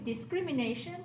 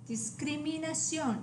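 First: Discrimination ending in NAY-shun; English discrimination, stress on NA; English pronunciation. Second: Discriminación ending in nah-SYON; Spanish discriminación, stress on the final o; Spanish pronunciation. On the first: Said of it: "the English word". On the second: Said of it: "accent on the O". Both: Shown as a demonstration.

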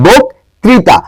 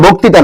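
First: বক্তৃতা slowly split with the r sounded, "bok... trita"; correct pronunciation demo. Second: বক্তৃতা without its r, "boktita"; wrong pronunciation demo. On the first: Teacher correcting students, বক্তৃতা slowly with the r. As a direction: stretch বক্তৃতা, clear "tri". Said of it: "এটা বক্তৃতা". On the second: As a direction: drop the r in বক্তৃতা: "bok-ti-ta". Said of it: "এটা বক্তৃতা না". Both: Shown as a demonstration.

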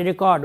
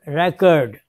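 First: "record" said ri-KORD, stress on the second syllable; record as verb. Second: "record" said REK-ord, stress on the first syllable; record as noun. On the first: Teacher showing the verb "record" as ri-KORD. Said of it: "record, verb". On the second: Teacher showing the noun "record" as REK-ord. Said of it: "noun, record". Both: Shown as a demonstration.

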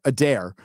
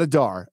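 First: "Adair" said as a-DAIR, the correct way; "Adair" with stress on DAIR; correct pronunciation. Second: "Adar" said as AH-dar, wrong on purpose; "Adar" given as the wrong version; wrong pronunciation. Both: Shown as a demonstration. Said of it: "not Adar".

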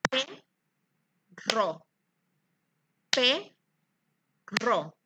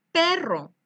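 First: "perro" stretched and split into "pe" and "rro"; syllabified word. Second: Said in the usual way. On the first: Shown as a demonstration. Teacher separating "perro" into syllables for the class. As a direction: pull "perro" apart into its syllables, slowly. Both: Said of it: "Vamos a separar en sílabas la palabra".

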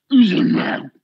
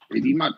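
First: Incredulous shout. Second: Said in the usual way. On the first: Real, not acted. Repeating, rising to outrage.

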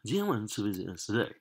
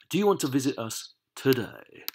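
First: Fast, casual run-through of the question; quick repeat. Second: Measured, projected reading of the question; clear read-out. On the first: Teacher repeating the exercise to the class, quick and casual. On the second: Teacher reading the next exercise to the class, clearly projected. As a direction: read it out distinctly, a little higher. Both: Shown as a demonstration.

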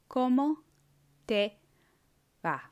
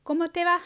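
First: Each word said apart, slowly; teacher modelling word by word; slowed, word by word. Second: Lively higher question; higher, louder question. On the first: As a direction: pause after every word. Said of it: "then I'll say it slower". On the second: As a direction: ask it brightly upward. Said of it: "say the words". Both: Shown as a demonstration.

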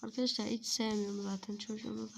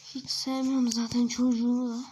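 First: Said in the usual way. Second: Louder complaint. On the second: Acted.

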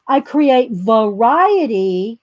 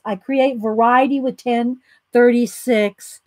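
First: Create said slow and leaned on, rising; slow emphatic reading of "I create variety"; italic emphasis. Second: Said in the usual way. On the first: Shown as a demonstration. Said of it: "she has it in italics". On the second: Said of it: "she doesn't have it in quotes".

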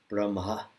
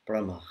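First: "Brahma" as brum-ha, soft H after M. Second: "Brahma" with a raspy H. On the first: Teacher explaining the rule, "Brahma" with soft H after M. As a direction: let the H in "Brahma" breathe softly after the M. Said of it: "the H is always supposed to be soft". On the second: Teacher showing what to avoid, "Brahma" with raspy H. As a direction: rasp the H in "Brahma" instead of keeping it soft. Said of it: "will become raspy". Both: Shown as a demonstration.

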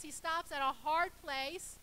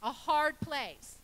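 First: Said in the usual way. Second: Hard place drawn out slowly, hard stressed; slow emphasis on hard. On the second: Shown as a demonstration. Preacher stressing the meaning of Luz, slow and weighty. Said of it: "rough, a hard place".

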